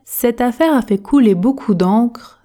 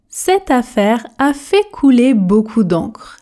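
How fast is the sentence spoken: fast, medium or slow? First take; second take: medium; slow. First: The sentence is spoken at an ordinary speed. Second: The sentence is spoken very slowly and carefully. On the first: "Version normale" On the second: "Version tortue"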